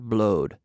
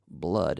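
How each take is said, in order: First: The word has a different, altered vowel. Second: The word has its usual vowel. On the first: The speaker calls it wrong. "not not not blowed" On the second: The speaker calls it right. "we say blood"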